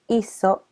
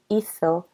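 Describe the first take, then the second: First: The z sounds like an English s. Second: The z sounds like an English th. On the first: "And this is with a Latin American accent" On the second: "That would be with a Spanish accent"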